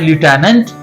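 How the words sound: It is said with an American pronunciation. "American बोलते हैं"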